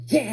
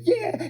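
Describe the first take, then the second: First: Said in the usual way. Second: Put-on high, proud little-boy cheer; excited toddler. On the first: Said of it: "and I'm like". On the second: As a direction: cheer back in a small child's high voice. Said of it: "And he's like".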